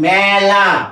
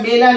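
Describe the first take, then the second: First: The first vowel is an open 'æ' sound. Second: The first vowel is a closed, plain 'e' sound. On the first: The speaker calls it right. "এটা মেলা, উচ্চারণটা বিকৃত" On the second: The speaker calls it wrong. "এটা মেলা নয়"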